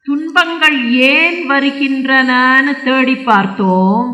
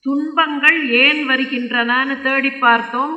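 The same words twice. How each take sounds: First: Slow, loud, held syllables; drawn-out declamation. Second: Said in the usual way. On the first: Acted. Bull tells king of searching for sorrow's cause, drawn out. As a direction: stretch the line out in a ringing recitation. Slow first take, repeated normally after.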